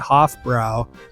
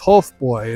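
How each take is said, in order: First: The name is said with an American pronunciation. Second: The name is said with a German pronunciation. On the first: The speaker calls it wrong. "You'll hear a lot of Americans or English people say Hofbrau" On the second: The speaker calls it right. "but it is Hofbräu"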